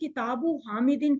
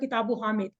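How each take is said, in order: First: The last word ends with its full case ending. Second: The last word ends without its case ending. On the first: The speaker calls it right. "इस तरह बोल बोल के हमारे जहन में ये रूल बैठ जाएगा" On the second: The speaker calls it wrong. "अगर हम इसको यूं बोलना शुरू करते हैं"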